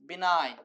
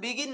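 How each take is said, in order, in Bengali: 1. g নীরব, আর লম্বা i এর উচ্চারণ হয়। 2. g উচ্চারিত হয়, যেমন begin শব্দে। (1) "এটা হচ্ছে বিনাইন" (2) "অনেকে বিগিন উচ্চারণ করে ফেলবে শর্টকাট করে"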